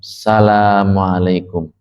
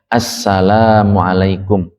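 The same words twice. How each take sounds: First: The 'al' syllable is dropped. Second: The 'al' syllable is clearly pronounced. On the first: The speaker calls it wrong. "Ini nggak ada alnya ini" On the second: The speaker calls it right. "alnya harus dibaca assalamualaikum"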